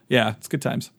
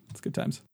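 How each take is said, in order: First: Said in the usual way. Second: Whispered aside. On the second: Real, not acted. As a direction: whisper "It's good times" as a wry aside. Repeats line, then whispers it.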